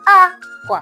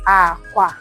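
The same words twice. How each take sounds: First: The first syllable is high, the second low. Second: Both syllables are said on a low tone. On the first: "What about the high, low?" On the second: "The low, low is called aqua"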